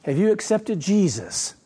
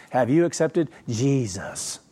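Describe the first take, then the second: First: A lighter second go at the sugary evangelist; mock the pious question again, mildly; syrupy evangelist voice. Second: Slow, put-on sugary preacher asking; syrupy evangelist voice. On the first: Preacher repeating the evangelist's question, mild mock. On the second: Preacher mocking how Protestants ask, syrupy voice. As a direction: draw it out like a fake-sweet street evangelist. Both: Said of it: "That's how they say it".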